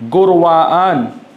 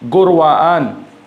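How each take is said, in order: Both takes have the same delivery.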